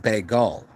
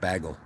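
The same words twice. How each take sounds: First: The second syllable has an added 'u' vowel. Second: The second syllable has no added 'u' vowel. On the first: The speaker calls it wrong. "why do you keep putting U's where they're not?" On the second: The speaker calls it right. "I say the word bagel"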